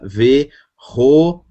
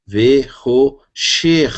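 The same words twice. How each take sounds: First: Ve-ro-sher split into three syllables; syllable reading. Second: Ve-ro-sher stretched very slowly, each syllable apart. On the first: Teacher showing the class how to join letters, syllabified. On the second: Teacher repeating the word slowly so the class can follow. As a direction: drag out Ve-ro-sher slowly for students. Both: Shown as a demonstration. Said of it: "Então, fica Ve-ro-sher".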